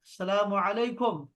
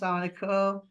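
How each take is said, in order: First: Every sound of the greeting is fully and forcefully pronounced. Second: The greeting is clipped, with sounds dropped and run together. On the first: The speaker calls it right. "पूरा जोर देना है, हर हर्फ पे जोर देना है।" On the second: The speaker calls it wrong. "ऐसे नहीं बोलना कि मैं जैसे हम शहजाद भाई हम बोलते हैं सलाम वालेकुम"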